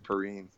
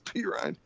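First: The name is said as one word, Perrine. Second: The name is split into two parts, P Ryan. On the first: This is how the speaker thinks it should be said. The speaker calls it right. "No, it's Perrine" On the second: This is how the announcers said it. The speaker calls it wrong. "They kept calling him P. Ryan. And I was like, why would you pronounce it that way?"

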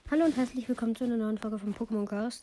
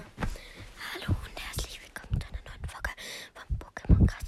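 First: It is said in a normal speaking voice. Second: It is whispered quietly in a fearful voice.

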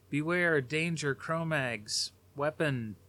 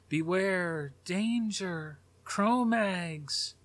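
First: It is said flatly, like casual conversation. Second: It is said urgently, with dramatic energy.

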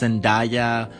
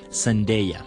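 First: The ending is said to rhyme with papaya. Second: The ending is said not rhyming with papaya. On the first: The speaker calls it wrong. "no es [name] como si fuera papaya" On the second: The speaker calls it right. "esa es la correcta pronunciación"

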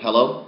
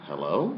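First: It sounds confident and assured. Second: It sounds hesitant and unsure.

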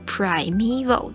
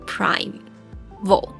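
First: The 'prime' part is split across two syllables. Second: It opens with 'prime' said as one unit. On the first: The speaker calls it right. "就发现是primeval，就是它是分成两个音节" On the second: The speaker calls it wrong. "就会非常习惯想要念primeval。我一开始是这样念"

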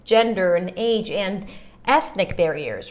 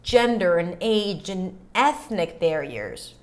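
First: The last 'and' is full, stressed, after a pause. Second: The last 'and' is reduced and unstressed. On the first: "if I really want to stress the and" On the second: "So I don't have to say and age"

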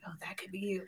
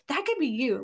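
First: It is said in a creepy, leering tone. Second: It is said in a sincere, encouraging tone.

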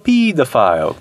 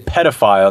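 First: It is said with a British pronunciation. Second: It is said with an American pronunciation. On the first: "and they say, he was a pedophile" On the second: "we say pedophile"

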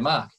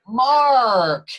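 First: It is said in his own Australian accent. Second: It is said in an American-style accent.

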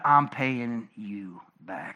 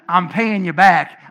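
First: It is said in a menacing, vengeful way. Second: It is said in a plain, neutral way. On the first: Revenge is being taken for a wrong. "I mean it in the" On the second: A debt is simply being repaid. "I don't mean it in the"

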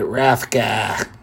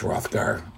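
First: The final r sound is dropped. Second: The final r sound is pronounced. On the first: This is how a New England teacher said it. The speaker calls it wrong. "She was from New England. So I just always remember her pronouncing it Hrothgar" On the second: This is the standard way to say it. The speaker calls it right. "even though it's pronounced Hrothgar, for people who can pronounce ours correctly"

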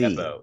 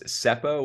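First: The name begins with a Z sound. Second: The name begins with an S sound. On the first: The speaker calls it right. "he pronounced it more like a Z" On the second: The speaker calls it wrong. "I thought it was Seppo with an S"

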